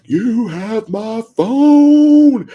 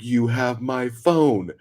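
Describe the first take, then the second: First: Very loud, high, drawn-out yell; screaming. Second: Slow, drawn-out, louder and higher; mock yell, held back from a scream. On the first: Retold or imitated. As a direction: imitate a man screaming up from the street. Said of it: "screaming at her". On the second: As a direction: imitate an exasperated man calling up. Man yelling back up at her.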